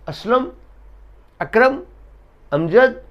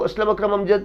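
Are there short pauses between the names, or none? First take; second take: short pauses; none. First: A brief pause separates each name. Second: The names run together with no pauses. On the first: Each name belongs to a separate person. The speaker calls it right. "बगैर सांस टूटे थोड़ा सा ठहराव देंगे" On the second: It is unclear how many people are being named. The speaker calls it wrong. "अगर मैं रुके बगैर"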